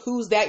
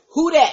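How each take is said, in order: First: It is said plainly, without extra force. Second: It is said with punchy, forceful energy.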